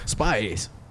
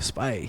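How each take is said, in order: First: The word is said in a theatrical, put-on voice. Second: The word is said in a plain, ordinary voice.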